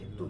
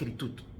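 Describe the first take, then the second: First: The word begins with a softened guttural sound. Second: The word begins with a hard k sound. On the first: The preceding letter changes the first sound. "Aunque se pronuncia geritud" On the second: This is the basic form of the word. "la pronuncia correcta es Keritut, con K"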